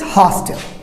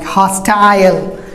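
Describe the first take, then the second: First: An American pronunciation with the vowel cut short. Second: A British pronunciation with a full 'eye' sound. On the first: "Americans hostile" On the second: "British will go for I sound like hostile"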